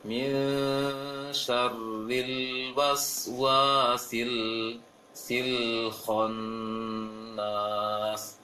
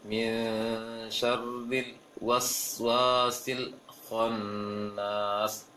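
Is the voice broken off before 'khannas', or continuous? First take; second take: continuous; broken. First: The sound flows straight into 'khannas'. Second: The sound breaks off before 'khannas'. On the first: The speaker calls it right. "Seharusnya langsung mengalirkan aja uh, suaranya" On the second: The speaker calls it wrong. "Seperti bacanya eh, yang terpatahkan tadi"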